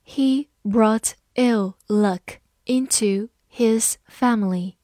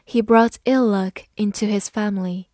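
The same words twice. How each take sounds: First: Slow, breathy careful reading. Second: Said in the usual way. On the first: Shown as a demonstration. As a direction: read it slowly for learners. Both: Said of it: "好，慢慢来读。".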